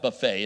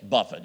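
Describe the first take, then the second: First: The word ends with a 'fay' sound. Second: The word ends with a 'fit' sound. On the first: It names a spread of food. The speaker calls it wrong. "It's not buffet" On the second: It means being beaten up. The speaker calls it right. "it's buffet. You know what that means? Okay, it means you got beat up"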